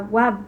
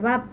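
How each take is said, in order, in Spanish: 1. El nombre de la letra empieza con un sonido 'w'. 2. El nombre de la letra empieza con un sonido 'v'. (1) "en el hebreo eh, antiguo eh, se pronunciaba Wab" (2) "en el hebreo moderno se pronuncia Bab"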